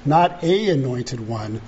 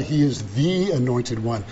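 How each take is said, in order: First: "a" said as a full "ay"; single out "a" to reject it; stress on A. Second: "the" said as a full, weighted "thee"; stress on THE. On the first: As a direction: contrastive weight on "a". Contrasts "a" with "the. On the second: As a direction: lean on "the" to mark the only one. Contrasts "the" with "a. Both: Shown as a demonstration.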